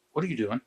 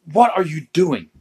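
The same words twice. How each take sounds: First: Said in the usual way. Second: Louder, higher, indignant question; mock-outraged wife, loud and raised; exasperated demand. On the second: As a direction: demand an answer, punching the words. Wife's exasperated second question.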